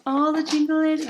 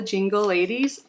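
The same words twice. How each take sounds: First: Sung, lilt "jingle ladies" as a playful song. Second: Said in the usual way. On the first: Shown as a demonstration. Reading the box theme, then singing it playfully higher.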